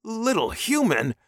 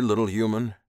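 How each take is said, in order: First: High, loud, offended echo; indignant hiss. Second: Firm, louder voice at normal pitch; commanding alien captor. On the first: Captive man echoing alien's insult, indignant. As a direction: throw it back, pitched way up. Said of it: "the man hissed". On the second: Alien buyer questioning his captive, firm and commanding. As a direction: address the captive with easy authority. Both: A narrator's reading.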